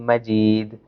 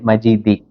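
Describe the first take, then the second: First: The word ends on the consonant d. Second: The word ends with a final i vowel. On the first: The speaker calls it right. "We stop here" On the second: The speaker calls it wrong. "we don't say Majidi"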